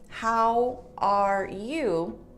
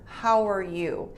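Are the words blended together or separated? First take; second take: separated; blended. First: Each word is finished and said separately. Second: The words run together without breaks. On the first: The speaker calls it wrong. "instead of saying" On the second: The speaker calls it right. "because it's blended"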